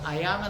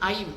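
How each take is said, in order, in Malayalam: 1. ഇത് രണ്ട് അക്ഷരങ്ങളായാണ് ഉച്ചരിക്കുന്നത്. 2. ഇത് ഒരു അക്ഷരമായാണ് ഉച്ചരിക്കുന്നത്. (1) "അയാം എന്നുള്ളത്" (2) "അവർ ഉച്ചരിക്കുന്നത് ഐം"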